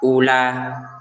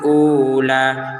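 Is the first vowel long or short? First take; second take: short; long. First: The first vowel is kept short. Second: The first vowel is held long. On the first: The speaker calls it right. "jadi pendek menjadi ulah" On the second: The speaker calls it wrong. "jangan dibaca panjang"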